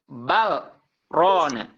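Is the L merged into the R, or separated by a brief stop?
brief stop. A brief stop separates the L from the R. The speaker calls it right. "Saktah, betul"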